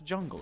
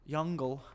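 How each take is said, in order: First: The word begins with a J sound. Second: The word begins with a Y sound. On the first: The speaker calls it right. "it's jungle" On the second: The speaker calls it wrong. "Jungle would be like a Y"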